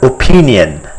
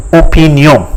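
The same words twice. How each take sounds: First: Said in the usual way. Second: "opinion" as French o-pee-nyon, nasal ending; French pronunciation. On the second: Shown as a demonstration. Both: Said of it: "but it is pronounced as".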